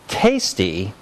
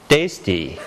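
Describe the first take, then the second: First: The first t has a puff of air. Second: The first t has no puff of air. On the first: It sounds like an English speaker. The speaker calls it right. "you should say tasty" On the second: It sounds like a French speaker. The speaker calls it wrong. "and not tasty"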